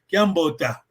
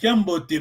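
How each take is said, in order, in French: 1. Le mot finit par un son 'a'. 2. Le mot finit par un son 'e'. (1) "Les vrais Kaga, disons, ils vont dire Kiambota" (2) "On dit Kiambo, Kiamboté"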